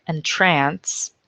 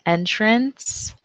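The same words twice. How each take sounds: First: Entrance as en-TRANCE; verb entrance. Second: Entrance as EN-trance, higher; noun entrance. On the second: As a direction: stress EN in entrance. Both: Shown as a demonstration. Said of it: "homographs list".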